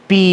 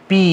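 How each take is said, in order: Both takes have the same delivery.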